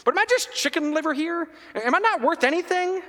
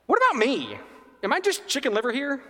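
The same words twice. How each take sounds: First: Much higher, louder indignation; heightened hurt protest. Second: Higher, louder hurt protest; aggrieved older son. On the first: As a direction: cry out feeling worthless. Repeating grievance, heightened. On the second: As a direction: demand your due, hurt and indignant. Older son's grievance. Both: Acted.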